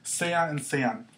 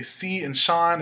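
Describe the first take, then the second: First: "Sea" and "sean" said slowly, as say-uh and say-ahn; careful Spanish pronunciation, slow; correct pronunciation. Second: "Sean." said like the English name Sean; "si" and "Sean." as students wrongly say them; mispronounced like the name Sean; wrong pronunciation. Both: Shown as a demonstration. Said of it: "that's not how you say it".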